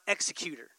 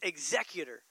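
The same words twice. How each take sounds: First: The stress is on the first syllable. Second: The stress is on the second syllable. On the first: It sounds like someone is being killed. The speaker calls it wrong. "sounds like you're killing somebody" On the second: It names one who carries out a function. The speaker calls it right. "No, it's executor"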